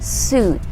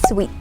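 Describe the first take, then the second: First: It is said without a glide, like suit. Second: It is said with a w glide, like sweet. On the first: The speaker calls it right. "It is actually pronounced as suit" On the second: The speaker calls it wrong. "not pronounced as sweet"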